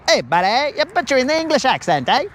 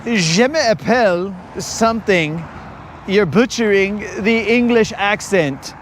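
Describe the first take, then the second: First: High, quick mocking voice with a tag "eh"; Colin mocking the accent. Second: Colin mocking the accent. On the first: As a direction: imitate a friend's accent jibe, fast and pitched up. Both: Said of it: "Colin's gonna make fun of my accent".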